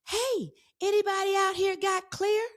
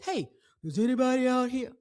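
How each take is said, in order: First: The voice is lighter and higher. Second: The voice is dark and deep.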